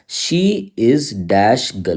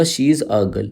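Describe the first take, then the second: First: Very slow, saying "dash" for the gap; slow blank read. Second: Said in the usual way. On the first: Shown as a demonstration. Teacher shows students the gapped sentence, very slowly. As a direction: spell out "she is dash girl" word by word, very slowly. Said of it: "देखो जैसे मैंने बोला". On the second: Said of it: "तो हमने बोला".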